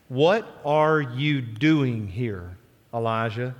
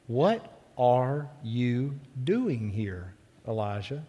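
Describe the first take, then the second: First: Very slow, deliberate question; voice of the Lord. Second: Soft, very slow voiced question; gentle whisper. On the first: The Lord questions Elijah in the cave, slow and deliberate. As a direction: draw out each word of the question. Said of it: "word of the Lord came". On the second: A voice questions Elijah at the cave mouth, gentle and hushed. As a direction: ask it gently, drawing out every word. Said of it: "came a gentle whisper". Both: A narrator's reading.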